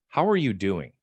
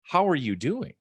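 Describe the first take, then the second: First: Said in the usual way. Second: Earnest, caring ask with a lift on how; really mean the question; genuinely asking how she is; sincere question. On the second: Retold or imitated. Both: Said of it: "she could tell I meant".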